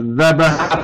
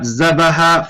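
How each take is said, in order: First: The word begins with a voiced th sound. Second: The word begins with a z sound. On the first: The speaker calls it right. "but ذبح for dhabiha" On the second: The speaker calls it wrong. "not ذبح for zabiha"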